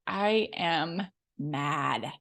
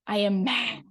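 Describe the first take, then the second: First: "I am mad" dropped low and dragged out slowly; slow, heavy "I am mad"; emphatic. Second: Said in the usual way. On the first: Shown as a demonstration. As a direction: lean slowly into each word of "I am mad".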